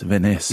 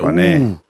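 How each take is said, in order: First: The name ends with an 'ess' sound. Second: The name ends with an 'er' sound. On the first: The speaker calls it wrong. "Is it Vaness?" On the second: The speaker calls it right. "I reckon it's Vaner"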